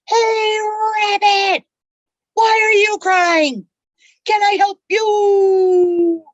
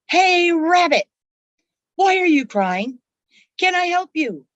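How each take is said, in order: First: It is yelled at the top of the lungs. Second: It is said somewhat loudly, as a yell.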